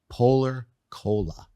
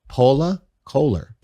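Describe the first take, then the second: First: It is said in a general American accent. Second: It is said in a thick Boston accent. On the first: This is how the brand name should sound. The speaker calls it right. "I couldn't say Polar Cola" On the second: This is how the speaker used to say it. The speaker calls it wrong. "I said Pola Kohler"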